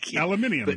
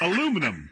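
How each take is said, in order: First: The word is said with five syllables. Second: The word is said with four syllables.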